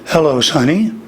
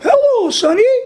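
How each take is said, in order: First: It is said in a lower vocal register. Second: It is said in a very high, Mickey Mouse-like register.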